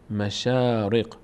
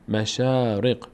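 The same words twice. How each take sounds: First: The vowel after sh is long. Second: The same.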